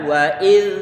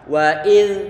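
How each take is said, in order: Both takes have the same delivery.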